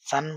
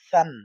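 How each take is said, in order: First: It begins with a hissing s sound. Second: It begins with a soft tongue-between-teeth th. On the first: The speaker calls it wrong. "অনেকে সান সান বলবেন না" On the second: The speaker calls it right. "জিহ্বার আগা সামনের উপরে দুই দাঁতের আগার সাথে লাগাবেন। লাগিয়ে নরম করে বলবেন"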